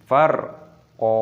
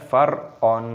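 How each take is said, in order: First: The word ends on a long open vowel. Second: The word ends with an n sound. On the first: The speaker calls it right. "Cara membacanya yaitu farqa" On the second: The speaker calls it wrong. "bukan farqon"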